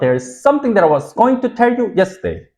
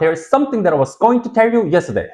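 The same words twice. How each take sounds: First: The sentence is said at a slower pace. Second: The sentence is said at a faster pace.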